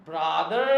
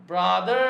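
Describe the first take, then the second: Both takes have the same delivery.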